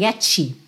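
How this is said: It ends with a Carioca 'tch' plus a vowel.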